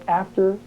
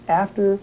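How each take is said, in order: Both takes have the same delivery.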